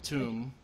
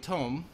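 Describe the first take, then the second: First: The vowel is an long oo sound. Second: The vowel is an long oh sound. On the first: "where I come from, we pronounce it tomb" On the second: "so a tome"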